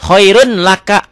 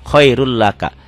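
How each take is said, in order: First: High, loud "Khairun laka" with a clear N; N as written. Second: "Khairul laka" with a doubled L; N merged into L. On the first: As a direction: announce "Khairun" with its N intact. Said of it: "Hukumnya idgham bila guna". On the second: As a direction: join "Khairul" to "laka" without N. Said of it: "domatain ketemu lam". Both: Shown as a demonstration.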